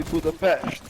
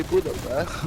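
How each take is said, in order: First: "Budapest" with sh before the final t; Hungarian pronunciation. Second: "Budapest" ending in a plain -pest; anglicized pronunciation. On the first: Correcting the usual name for a friend, Hungarian pronunciation. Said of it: "it's actually Budapest". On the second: Admitting an old habit to a friend, anglicized pronunciation. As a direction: say "Budapest" with s, not sh. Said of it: "I don't need to say". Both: Shown as a demonstration.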